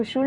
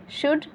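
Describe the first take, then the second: First: शुल with a sounded l; wrong should. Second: शुड with silent l, shood; correct should. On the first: Teacher rejecting a misreading, mispronounced. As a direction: say शुल as shool-d, l heard. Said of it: "इसको शुल नहीं". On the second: Teacher showing students the right reading, silent l. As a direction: say शुड with no l at all. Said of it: "ऐसे पढ़ा जाता है". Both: Shown as a demonstration.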